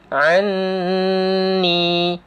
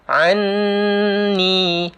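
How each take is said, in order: First: The doubled n is nasalized and held long. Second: The same.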